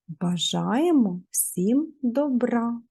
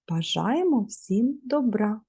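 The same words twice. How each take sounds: First: The phrase is said at a normal pace. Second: The phrase is said very quickly.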